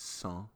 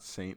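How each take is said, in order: First: Saint is pronounced the French way. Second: Saint is pronounced the English way. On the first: The speaker calls it right. "it's Saint, because they're in Switzerland" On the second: The speaker calls it wrong. "it's not Saint"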